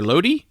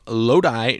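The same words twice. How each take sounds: First: Lodi said as LOH-dee, questioning rise; second guess at Lodi. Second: Lodi said as LOH-dye; first guess at Lodi. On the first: Host unsure of a town's name, Lodi as LOH-dee. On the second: Host unsure of a town's name, Lodi as LOH-dye. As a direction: end Lodi like "die". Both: Shown as a demonstration. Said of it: "didn't bother to look up how to say that one".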